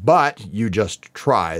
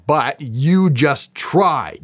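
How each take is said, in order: First: "But you just try" with the weight on "But"; the wrong reading. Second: "But you just try" slow, weight landing on "you"; slow down and press "you" home; the right reading. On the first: Vlogger shows fans the wrong reading, weight on "But". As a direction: lean on "But", let "you" slip past. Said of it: "And they're not saying". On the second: Vlogger gives fans the true reading, slow with stress on "you". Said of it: "They're saying". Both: Shown as a demonstration.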